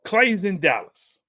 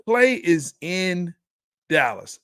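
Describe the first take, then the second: First: Said in the usual way. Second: "Klay is in" drawn out, then "Dallas" set apart; measured restatement with a pause before "Dallas"; slow, deliberate emphasis. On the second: Real, not acted. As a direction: spell it out slowly, pausing before "Dallas". Repeats statement slowly for emphasis.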